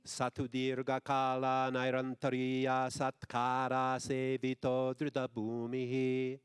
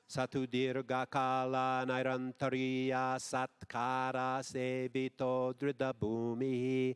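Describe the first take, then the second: Both takes have the same delivery.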